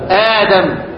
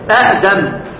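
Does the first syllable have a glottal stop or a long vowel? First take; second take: long vowel; glottal stop. First: The first syllable has a long a vowel. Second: A glottal stop closes the first syllable. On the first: This is the actual form after the change. "يبقى آدم أعملها ايه؟" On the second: This is the underlying original form. "اصل الكلام ادم"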